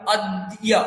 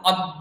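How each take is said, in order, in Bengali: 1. d-এর পরে স্পষ্ট y-ধ্বনি আছে। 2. এই শব্দে d-এর দ্বিত্ব আছে, y নেই। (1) "দয় জফলার উচ্চারণ সংস্কৃতে ইয় দিয়ে হবে" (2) "শোনাবে কি অ দয় দয়, অ দ তারপরে দ"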